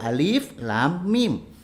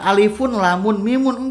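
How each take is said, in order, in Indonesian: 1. Setiap nama huruf diakhiri tanpa tambahan. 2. Setiap nama huruf diakhiri dengan tambahan -un. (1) "dibacanya satu-satu" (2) "Bukan alifun, lamun, mimun enggak"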